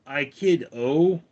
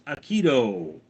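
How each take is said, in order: First: Said in the usual way. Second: Aikido, ai-KEE-do, stress on the middle; Aikido said right. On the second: Shown as a demonstration.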